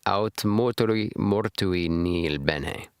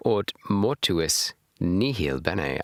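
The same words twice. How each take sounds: First: Aut mortui nihil bene said slowly, syllable by syllable, like a student copying the app; slow careful Latin. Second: Aut mortuis nihil bene with "mortuis" ending in -is and nihil with a full h, slow; earlier mispronunciation. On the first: Reader repeating the translator's Latin, slow and careful. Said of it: "repeating after translator". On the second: Reader mimicking how they first misread the Latin, slowly. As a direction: replay the earlier wrong take of mortuis, slowly. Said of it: "How did I say it?". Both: Shown as a demonstration.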